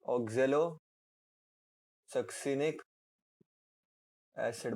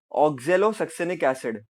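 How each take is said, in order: First: Oxalosuccinic drawn out very slowly, syllable by syllable; slow dictation. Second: Said in the usual way. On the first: Shown as a demonstration. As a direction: stretch oxalosuccinic so the class can write it. Term repeated slowly for dictation. (oxalosuccinic बहुत धीरे, खींचकर)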